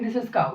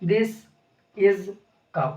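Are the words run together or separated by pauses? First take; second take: run together; separated. First: The words run together without pauses. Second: A pause separates each of the words. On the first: It is read as one sentence. The speaker calls it wrong. "ऐसे नहीं पढ़ेंगे" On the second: Each word stands alone as a separate word. The speaker calls it right. "इसको ऐसे पढ़ेंगे"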